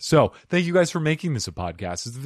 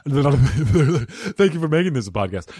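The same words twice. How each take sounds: First: Said in the usual way. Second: Laughing. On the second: Shown as a demonstration.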